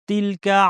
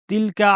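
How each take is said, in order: Both takes have the same delivery.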